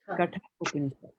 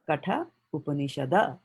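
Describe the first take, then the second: First: The last word ends on a d sound. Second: The last word ends on an a vowel. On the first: "He's ended it with a D. That's why we are saying Upanishad" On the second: "If he had put a A there, then we would have said"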